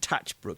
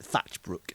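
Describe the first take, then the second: First: The name begins with a plain T sound. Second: The name begins with a TH sound. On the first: The speaker calls it right. "it's definitely Tatchbrook" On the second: The speaker calls it wrong. "I pronounced it with an extra H"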